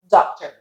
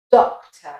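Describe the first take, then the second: First: American doctor with a final R; doctor with open "ah" and R, American; American accent. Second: British Doctor ending in "tuh"; British accent. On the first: Teacher contrasting doctor with British, American accent. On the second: Teacher repeating Doctor for learners, British accent. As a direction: lower Doctor, round O, no R, British. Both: Shown as a demonstration. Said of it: "and as an American accent".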